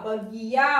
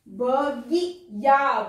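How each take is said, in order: First: Said in the usual way. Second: Drawn out slowly, each sound apart; slow syllable-by-syllable reading. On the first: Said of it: "teacher repeats word". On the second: Shown as a demonstration. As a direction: sound out बगिया slowly for the children. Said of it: "teacher sounds out word".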